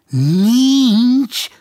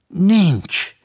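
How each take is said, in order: First: Nincs? thrown up high and loud in disbelief; incredulous echo. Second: Said in the usual way. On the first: A narrator's reading. Policeman repeats Ervinke's answer, stunned and incredulous. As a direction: echo it as if you can't believe your ears.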